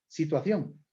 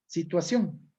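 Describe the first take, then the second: First: The 'ci' is said with the tongue between teeth. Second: The 'ci' is said as a plain 's' sound. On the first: "como interdental, tal como pronuncian algunos españoles" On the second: "nosotros no tenemos ceseo"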